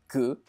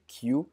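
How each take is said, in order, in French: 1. Le titre se prononce à la française. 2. Le titre se prononce à l'anglaise. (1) "il s'appelle Que" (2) "il faudrait plutôt prononcer Q, donc euh, le mot en anglais"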